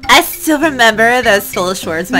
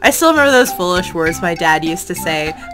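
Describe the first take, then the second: First: It is said in an ultra girly voice. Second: It is said in his normal voice.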